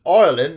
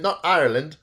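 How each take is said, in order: First: Ireland said loud as a bad Irish "Oirland"; badly faked Irish brogue; terrible Irish accent. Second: Said in the usual way. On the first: Shown as a demonstration. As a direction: punch out a hammy Irish Ireland. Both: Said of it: "Terrible accent".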